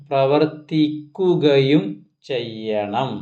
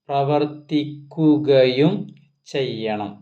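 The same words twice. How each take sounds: No difference in how they are said.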